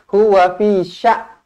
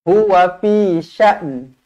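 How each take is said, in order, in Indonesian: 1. Kata terakhir berakhir tanpa bunyi n. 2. Kata terakhir berakhir dengan bunyi n ringan. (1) "tak bunyi langsung" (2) "bunyikan sedikit huruf nun"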